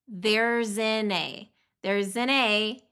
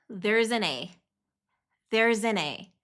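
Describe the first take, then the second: No difference in how they are said.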